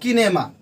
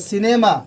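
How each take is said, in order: First: The word begins with a k sound. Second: The word begins with an s sound. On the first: The speaker calls it wrong. "Not किनेमा" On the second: The speaker calls it right. "उसका उच्चारण हम स्व की तरह करेंगे"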